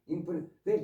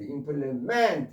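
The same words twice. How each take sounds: First: The stress is on the first syllable. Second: The stress is on the last syllable. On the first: It is a noun meaning a tool or instrument. "조금 전에 implement라고 발음하는데" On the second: It is a verb meaning to complete. "뒤에 강세에 있어서"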